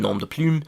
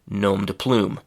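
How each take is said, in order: First: It is pronounced the French way. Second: It is pronounced the English way. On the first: "That's the French pronunciation" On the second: "in English we say"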